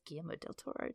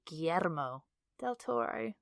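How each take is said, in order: First: The name is said quickly and plainly. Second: The name is said slowly with great gusto. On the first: The speaker calls it right. "Just say it quickly" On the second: The speaker calls it wrong. "I feel like you have to do it with such gusto"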